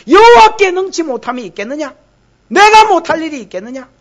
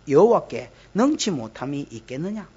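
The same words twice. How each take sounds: First: Loud, high, rising rhetorical demand; forceful scolding, pitched up; indignant challenge. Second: Said in the usual way. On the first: Acted. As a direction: hurl the question as an offended God. Same verse as God's indignant challenge.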